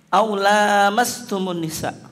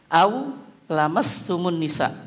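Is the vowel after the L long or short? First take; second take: long; short. First: The vowel after the L is long. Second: The vowel after the L is short. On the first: It figuratively means sexual intercourse. "Yang kedua dibaca pandang, panjang" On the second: It means literal skin-to-skin touching. "Yang pertama itu dibaca pendek ya, lamnya itu"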